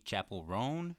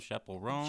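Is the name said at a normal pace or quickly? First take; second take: normal; quickly. First: The name is said at a normal pace. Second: The name is said quickly, run together.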